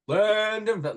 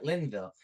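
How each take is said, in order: First: The middle syllable is fully said. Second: The middle syllable is left out. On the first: The speaker calls it right. "No, it's Linden. Linden" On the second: The speaker calls it wrong. "Like he just cut out the done part"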